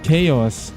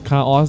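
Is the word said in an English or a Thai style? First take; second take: English; Thai. First: It is said with the original English pronunciation. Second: It is said with a Thai-style pronunciation. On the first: This is the actual pronunciation. "ถ้าเกิดเป็นคำอ่านจริงๆต้องอ่านว่า" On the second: This is how Thai people read it. "นี่เป็นคนไทยอ่าน"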